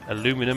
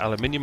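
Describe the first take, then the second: First: It is said the American way, with four syllables. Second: It is said the British way, with five syllables. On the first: The speaker calls it wrong. "Aluminum if you're American" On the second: The speaker calls it right. "but aluminium if you're human"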